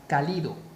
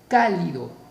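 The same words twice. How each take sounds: First: The stress is on the second syllable. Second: The stress is on the first syllable. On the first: "si la mayor fuerza de voz estuviese en Li" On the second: "mayor fuerza de voz en K"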